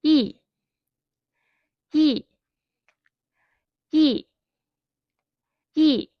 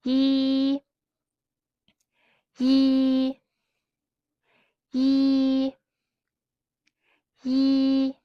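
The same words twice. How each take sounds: First: Short "Yi" starting high and dropping sharply; firm falling "Yi"; fourth tone. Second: "Yi" held high and level; long, flat, high "Yi"; first tone. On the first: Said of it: "let's try again". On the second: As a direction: hold "Yi" on one high, steady note. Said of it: "now let's try with another sound". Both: Shown as a demonstration.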